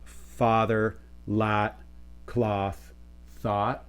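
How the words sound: Said in a far northern US accent, merged.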